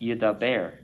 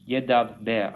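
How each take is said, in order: First: The b sound is single and short. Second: The b sound is doubled and held long. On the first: The speaker calls it wrong. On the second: The speaker calls it right. "I'm exaggerating it. So you hear the two b b b b"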